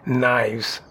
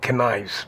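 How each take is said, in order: First: The initial K sound is silent. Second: The initial K sound is pronounced. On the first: The speaker calls it right. "We call them Knives" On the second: The speaker calls it wrong. "we don't call them Knives"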